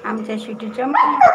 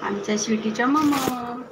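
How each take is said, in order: First: Louder, rising call on mamma; louder call to the dog. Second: Said in the usual way. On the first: Real, not acted. Cooing to the dog twice.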